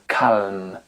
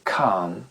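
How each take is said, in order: First: The L is sounded before the M. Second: The L is silent before the M. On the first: The speaker calls it wrong. "On ne dit pas calme" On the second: The speaker calls it right. "mais calm"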